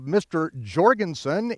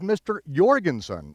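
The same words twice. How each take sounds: First: The name begins with a J sound. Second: The name begins with a Y sound. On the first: The speaker calls it wrong. "you don't speak of Mister Jorgensen" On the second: The speaker calls it right. "it is Mister Jorgensen, even though it's spelled with a J"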